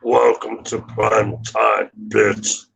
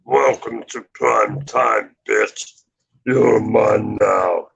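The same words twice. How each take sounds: First: Slow menacing slasher voice; drawn-out villain threat; Freddy Krueger voice. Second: Slow menacing slasher voice; lightly voiced horror villain; Freddy Krueger voice. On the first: Retold or imitated. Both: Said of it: "I do Freddy Krueger pretty good".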